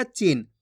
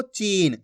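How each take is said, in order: First: "चीन" cut short, like "chin"; short vowel demo. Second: "चीन" with the ee stretched long; long vowel demo. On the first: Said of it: "ऐसे नहीं पढ़ना". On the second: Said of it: "इसी तरीके से पढ़ना आपको". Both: Shown as a demonstration.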